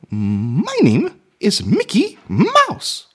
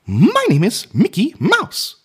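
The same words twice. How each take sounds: First: Very slow, high falsetto cartoon mouse; Mickey Mouse, drawn out. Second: High falsetto cartoon mouse voice; Mickey Mouse. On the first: Man finding the tones of his impression, slow high mouse voice. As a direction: stretch each word in a squeaky falsetto. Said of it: "That's my key in". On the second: Man trying his childhood impression, high cartoon mouse voice. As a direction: introduce yourself in a slow, squeaky falsetto. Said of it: "one of my first impressions was of Mickey Mouse". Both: Shown as a demonstration.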